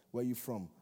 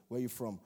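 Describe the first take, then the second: No difference in how they are said.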